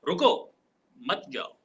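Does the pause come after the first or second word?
first word. The pause comes after the first word. The listener should stay and not leave. "इन्हीं तीन अल्फाज की अदायगी कुछ इस तरीके से होती है"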